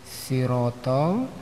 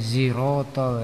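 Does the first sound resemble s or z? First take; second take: s; z. First: The first sound is a light s sound. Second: The first sound is close to a z sound. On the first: "membacanya ringan seperti sin" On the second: "menjelang-menjelang zai"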